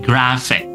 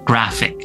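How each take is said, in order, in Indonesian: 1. Konsonan di tengah itu bunyi f. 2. Konsonan di tengah itu bunyi f.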